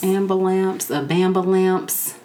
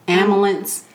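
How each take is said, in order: First: The word starts with an added b sound. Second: The word starts plainly with an a sound. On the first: The speaker calls it wrong. "if they say it wrong" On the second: The speaker calls it right. "We hereby retire anything other than ambulance"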